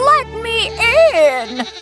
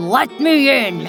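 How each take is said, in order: First: The voice is thin and high. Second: The voice is deep and low.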